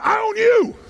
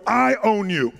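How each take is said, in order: First: High, forceful shout; like you mean it. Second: Said in the usual way. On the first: Shown as a demonstration. Speaker shows the audience how to challenge a partner, fierce shout. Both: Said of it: "say it like you mean it".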